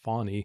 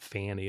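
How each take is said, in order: First: The first vowel sounds like in 'fawn'. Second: The first vowel sounds like in 'fan'. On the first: The speaker calls it right. "which is the correct pronunciation, like a fawn" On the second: The speaker calls it wrong. "but not Fanny"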